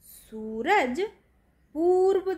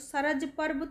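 First: The first vowels are said long. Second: The first vowels are said short. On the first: The speaker calls it right. "तो सूरज पूर्व दिशा में निकलता है" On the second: The speaker calls it wrong. "सरज पर्व तो नहीं अच्छा सुनाई देता ना"

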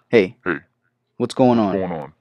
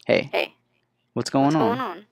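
First: The voice is altered to sound like a man. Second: The voice is altered to sound like a woman. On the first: "Male voices" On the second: "let's check out this woman right here"

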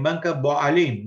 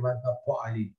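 First: The second word begins with a b sound. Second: The second word begins with a p sound. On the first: This is how Arabic speakers say it. "אומרים בנק הפועלים" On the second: Arabic speakers do not say it this way. "לא אומרים בנק הפועלים"

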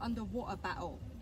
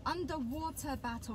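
First: The t sounds are lazy and weakened. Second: The t sounds are pronounced crisply and fully. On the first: The speaker calls it wrong. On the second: The speaker calls it right.

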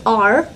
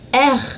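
First: The R sound is made in the mouth. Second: The R sound is made in the throat. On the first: This is the English way to say it. "in English, we use R" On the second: This is the French way to say it. "in French, we use it from the throat"

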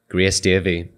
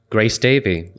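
First: The name is said in a local accent. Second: The name is said in a standard accent.

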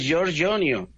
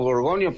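First: The name has an Italian pronunciation. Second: The name has a Mexican Spanish pronunciation. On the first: This is the name's original form. The speaker calls it right. "el nombre es italiano, es Giorgionio" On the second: This is how people locally say the name. The speaker calls it wrong. "aquí en México lo pronuncian como Gorgonio"

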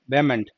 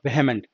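First: The h in the middle is silent. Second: The h in the middle is pronounced. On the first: The speaker calls it right. "keep the H silent" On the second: The speaker calls it wrong. "not vehement"

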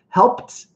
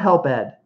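First: The ending is a short t sound. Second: The ending is a separate extra syllable. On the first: The speaker calls it right. "it's almost always going to be a T pronunciation" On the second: The speaker calls it wrong. "Not help ed"

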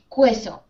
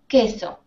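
First: A U sound is heard after the K. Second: No U sound is heard after the K. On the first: The speaker calls it wrong. "No decimos queso" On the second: The speaker calls it right. "We don't pronounce the U. Decimos queso"

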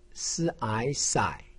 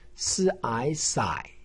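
First: The pitch dips low then rises. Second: The same.

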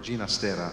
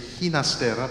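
First: The name is pronounced the Italian way. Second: The name is pronounced the Spanish way. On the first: "but he preferred Ginastera, alla italiana" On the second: "in Spanish you say Ginastera"

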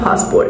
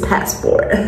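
First: It is said in a South African accent. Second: It is said in an American accent. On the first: The speaker calls it wrong. "It's not passport" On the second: The speaker calls it right. "I'm an American babe"

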